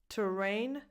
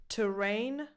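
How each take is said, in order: No difference in how they are said.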